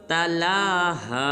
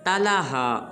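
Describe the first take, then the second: First: The vowel after 'l' is held longer. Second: The vowel after 'l' is short. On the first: The speaker calls it right. "लाम को एक अलिफ मिक़दार लंबा करेंगे" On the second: The speaker calls it wrong. "ये बिल्कुल गलत है"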